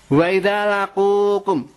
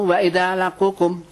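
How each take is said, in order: First: Slow chanted Arabic verse, drawn out; slow Quran recitation. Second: Said in the usual way. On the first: Acted. Preacher intones verse to the congregation, slow recitation. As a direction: intone "Wa idza laqukum" slowly, like a Quran reciter.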